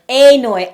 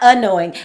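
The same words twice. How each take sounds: First: The first syllable is strongly emphasized. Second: The first syllable is not emphasized. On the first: Something even worse than ordinary annoyance. "I got to put the emphasis on the A" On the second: Ordinary annoyance. "not annoying"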